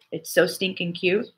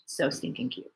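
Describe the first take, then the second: First: Said in the usual way. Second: Whispered, breathless gush; repeating it in a whisper over a cute video. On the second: Real, not acted. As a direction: whisper it like it's too cute to say aloud.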